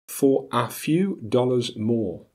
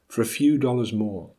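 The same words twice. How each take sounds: First: Every small word is said in full. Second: The small words are reduced with schwa. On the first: "as they are spelt" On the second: "as they are pronounced"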